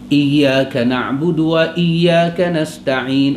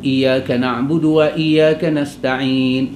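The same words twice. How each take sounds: First: The doubled y sound is held heavy and long. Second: The y sound is light, like a single letter. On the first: The speaker calls it right. "Diberatkan dia" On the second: The speaker calls it wrong. "Kalau dia pi ringan"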